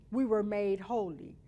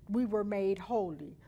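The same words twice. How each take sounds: The two takes are said the same way.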